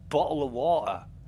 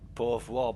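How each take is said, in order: First: The T sounds are clearly pronounced in the phrase. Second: The T sounds are dropped in the phrase.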